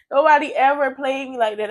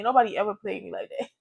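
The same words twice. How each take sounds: First: Said through a laugh of disbelief. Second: Said in the usual way. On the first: Real, not acted. Telling viewers how the girl played her, laughing. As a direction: laugh it out, can't believe it.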